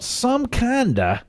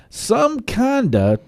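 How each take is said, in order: First: Southern "some kinda", slow with a long "kinda"; southern drawl. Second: Said in the usual way. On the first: Shown as a demonstration. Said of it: "that'd be that southern version of kind". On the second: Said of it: "that southern version of kind".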